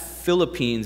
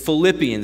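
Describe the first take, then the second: First: The word is pronounced as 'Philippines'. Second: The word is pronounced as 'Philippians'. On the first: The speaker calls it wrong. "if I say it really fast, ... it's just my North Ohio accent" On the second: The speaker calls it right. "It's Philippians"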